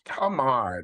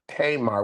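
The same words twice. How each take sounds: First: The first syllable has no y glide. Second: The first syllable has a y glide. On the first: The speaker calls it right. "it's Tamar" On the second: The speaker calls it wrong. "not Tamar ... acting like there's a Y in her name"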